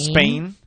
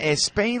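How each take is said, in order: First: The word starts directly with the s sound. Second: An extra 'e' vowel comes before the s. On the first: The speaker calls it right. "So how do you pronounce Spain and stop correctly?" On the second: The speaker calls it wrong. "A lot of times with words that start with es, Spanish people say"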